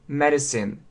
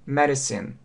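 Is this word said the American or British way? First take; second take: American; American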